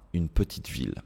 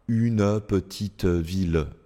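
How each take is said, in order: First: The final E sounds are silent. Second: The final E sounds are pronounced aloud. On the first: The speaker calls it right. "non, une petite ville" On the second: The speaker calls it wrong. "je ne dis pas une petite ville"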